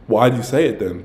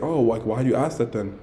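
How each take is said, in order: First: Said in the usual way. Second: Softer, mild retold question; non-aggressive question. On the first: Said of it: "But I don't say it aggressively". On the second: Guy asking the girl why she asked, non-aggressive. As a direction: ask it gently, without confrontation. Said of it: "I don't say it aggressively".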